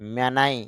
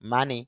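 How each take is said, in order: First: The vowels are 'ay' then 'eye'. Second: The vowels are 'ah' then 'ee'. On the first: "M এ মে N আই নাই" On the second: "M এ মা N Y নি"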